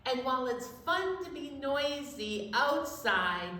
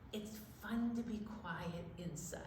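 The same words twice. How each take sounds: First: Said in the usual way. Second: Very soft and hushed; quiet inside voice. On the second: Shown as a demonstration. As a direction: drop right down to a hush.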